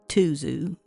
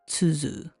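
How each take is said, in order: First: The word begins with a plain t sound. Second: The word begins with a ts sound. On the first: "I want to go with tuzu because that's pretty much, well, what everybody's going to call it" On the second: "the correct pronunciation would be tsuzu"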